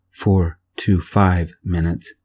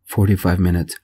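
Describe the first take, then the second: First: "four to five" slowly, each word separate; spelled-out correction. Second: Said in the usual way. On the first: A narrator's reading. Narrator correcting the dispatcher's estimate, "four to five" slowly separated.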